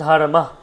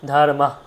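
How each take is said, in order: No difference in how they are said.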